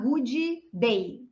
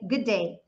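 First: The two d sounds are pronounced separately. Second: The two d sounds merge into one. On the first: The speaker calls it wrong. "ninguém vai falar good day" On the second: The speaker calls it right. "a gente junta tudo para falar só no som do D"

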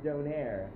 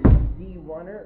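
First: The name is said as Donair. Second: The name is said as D-one-er. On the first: "or Donair" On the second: "you can either pronounce it D1er"

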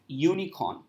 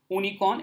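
First: The word begins with a 'y' consonant sound. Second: The word begins with a plain 'oo' vowel sound. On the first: The speaker calls it right. "it's unicorn. So because of the consonant sound" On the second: The speaker calls it wrong. "It's not unicorn"

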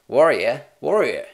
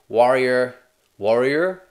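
First: It is spoken in an Australian accent. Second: It is spoken in an American accent. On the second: "is it different in an American accent?"

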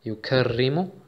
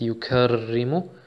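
No difference in how they are said.

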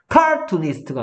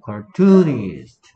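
First: The stress is on the first syllable. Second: The stress is on the second syllable. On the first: The speaker calls it wrong. "카투니스트가 아니고" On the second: The speaker calls it right. "이음절에 있다"

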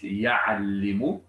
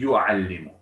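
First: The first syllable has an 'a' vowel. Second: The first syllable has a 'u' vowel. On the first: The speaker calls it wrong. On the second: The speaker calls it right.

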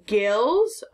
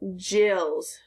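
First: The word begins with a hard g. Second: The word begins with a j sound. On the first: "Is it a G or a J?" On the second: "Is it a G or a J?"

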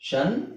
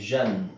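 First: It begins with a voiceless 'sh' sound. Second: It begins with a voiced 'zh' sound. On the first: "ಒಂದು ನಿಮಗೆ ಷನ್ ಷನ್" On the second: "ಇನ್ನೊಂದು ಝನ್"

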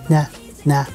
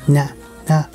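The two takes are said the same way.

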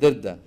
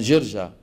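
First: The name is said with a 'd' sound. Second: The name is said with a 'j' sound. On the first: "فهدول اللي بيقلبوا الجيم دال" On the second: "في بلد بمصر اسمها جرجا"

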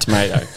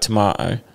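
First: It is said in an American accent. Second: It is said in a British accent. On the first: It is adapted so the listener understands. "and then you end up saying tomato" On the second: The listener does not understand it. "you say like tomato"

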